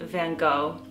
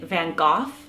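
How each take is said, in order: First: The name is said in an American pronunciation. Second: The name is said in a British pronunciation. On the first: "Americans, we pronounce it" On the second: "the British pronounce it"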